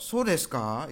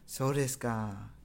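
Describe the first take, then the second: First: "So desu ka?" rising on the final "ka"; doubting question intonation. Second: "So desu ka?" slow, dropping at the end; falling intonation. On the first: Teacher explains the wrong tune, doubtful rising "So desu ka?". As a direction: question it, lifting "ka" at the end. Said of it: "itu mempertanyakan". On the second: Teacher corrects students' intonation, slow falling "So desu ka?". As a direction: let "So desu ka?" sink gently on "ka". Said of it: "intonasinya itu menurun". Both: Shown as a demonstration.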